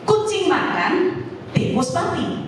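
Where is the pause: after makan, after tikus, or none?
after makan. There is a pause after makan. A cat is eating, and separately a rat died. "Ini ada dua peristiwa"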